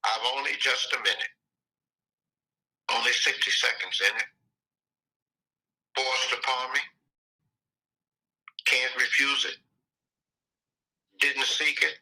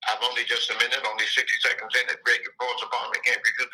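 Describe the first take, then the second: First: Slow recitation, long pause after each line. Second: Poem lines rushed into one breath; too fast. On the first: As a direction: let every short line stand alone. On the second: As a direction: rattle it off quickly with no pauses. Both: Shown as a demonstration. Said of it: "So let me slow down".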